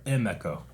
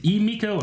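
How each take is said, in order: First: Emiko said "EM-eh-ko"; short-E pronunciation. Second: Emiko said "ee-MEE-ko"; first-syllable EE pronunciation. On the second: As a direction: open Emiko with a long "ee". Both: Shown as a demonstration. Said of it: "Is it Emiko or Emiko?".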